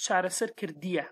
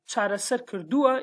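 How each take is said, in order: First: "kırdiya" ending in ee-ya; Hawleri form. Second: "kırdua" ending in oo-a; Slemani form. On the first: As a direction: say "çare ser kırdiya" with the Hawleri "-iya" ending. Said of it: "in Hawleri is". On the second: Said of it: "This is Slemani accent". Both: Shown as a demonstration.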